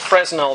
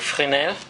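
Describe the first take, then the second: First: It is pronounced in a German-like way. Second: It is pronounced in a French-like way. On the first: The speaker calls it wrong. "that's how um, a German might pronounce it" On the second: The speaker calls it right. "I know it's pronounced closer to Fresnel"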